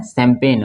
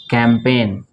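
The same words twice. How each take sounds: First: शैम्पेन as "sem-pen"; S sound at start. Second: कैंपेन as "kem-pen"; hard initial K in कैंपेन, plain N ending; K sound at start. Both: Shown as a demonstration. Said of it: "अंतर है, थोड़ा सा ध्यान से".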